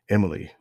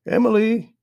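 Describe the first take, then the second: First: Said in the usual way. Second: High, loud sustained call; grandmother's raised calling voice. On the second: A narrator's reading. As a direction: call up the stairs for someone. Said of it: "grandmother called from downstairs".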